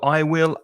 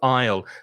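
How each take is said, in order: First: Both words are said in full, unreduced. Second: The two words are contracted into one syllable. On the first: The speaker calls it wrong. "instead of saying" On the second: The speaker calls it right. "use contractions that will make you sound more fluent"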